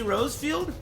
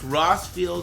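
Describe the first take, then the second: First: The first syllable sounds like 'rose'. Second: The first syllable sounds like 'ross'. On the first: "Did I say Rosefield?" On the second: "It's pronounced Rossfield in my country"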